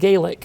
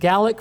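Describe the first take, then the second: First: The word is pronounced the Irish way. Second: The word is pronounced the Scottish way. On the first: It names the Irish language. "For the Irish, you pronounce it Gaelic" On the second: It names the Scottish language. "For the Scots, you pronounce it Gaelic"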